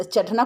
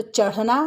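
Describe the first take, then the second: First: चढ़ना said with a hard stop ट, the wrong way; teacher demonstrating the wrong चढ़ना with a hard ट; wrong pronunciation. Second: चढ़ना with a flapped ढ़ in the middle; teacher modelling the correct चढ़ना with a flap; correct pronunciation. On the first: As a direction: say चढ़ना with a hard ट in the middle, as a mistake. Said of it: "चढ़ना कोई शब्द नहीं है". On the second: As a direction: say चढ़ना with a quick flapped ढ़, the right way. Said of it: "इसी का प्रयोग होता है". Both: Shown as a demonstration.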